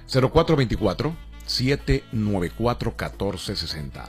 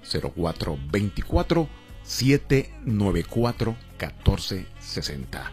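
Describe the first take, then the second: First: It is said at normal speed. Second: It is said a little more slowly.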